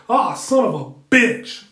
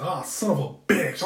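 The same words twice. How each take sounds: First: Loud, slow wrestling-announcer exclamation; wrestling commentator bellow; Jim Ross call. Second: Said in the usual way. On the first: Retold or imitated. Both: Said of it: "I'm sounding like Jim Ross on wrestling".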